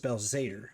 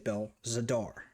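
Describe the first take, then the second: First: The final 'ar' vowel is weak and reduced. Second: The final 'ar' vowel is full and clearly hit. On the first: This is how someone else says it. "he says Bel Zader" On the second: This is the speaker's own way of saying it. "I hit the A R and stuck the landing"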